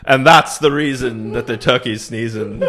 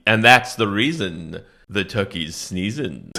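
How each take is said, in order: First: Laughing poem line. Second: Solemn final refrain. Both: Pretend. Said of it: "it's a powerful poem".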